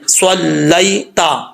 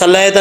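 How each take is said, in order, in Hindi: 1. पहली ध्वनि भारी, ज़ोरदार s है। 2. पहली ध्वनि हल्की, सादा s है। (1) "स्वाद ज़बर लाम" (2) "अब इसको सल्लैता नहीं पढ़ना"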